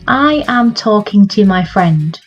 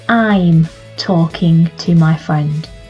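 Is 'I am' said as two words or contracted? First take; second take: two words; contracted. First: I and am are said as two separate words. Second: I and am are joined into one syllable.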